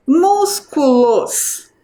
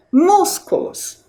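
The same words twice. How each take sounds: First: "Músculos" drawn out very slowly; syllable-by-syllable reading. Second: "Músculos" with MÚS high and stretched; stress on MÚS. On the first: Teacher reads the word for children, "Músculos" syllable by syllable. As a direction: stretch each syllable of "Músculos". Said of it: "Qual é a sílaba mais forte?". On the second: Teacher shows children the strongest syllable, stressing MÚS in "Músculos". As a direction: lean slowly on the first syllable of "Músculos". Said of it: "É a sílaba mus". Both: Shown as a demonstration.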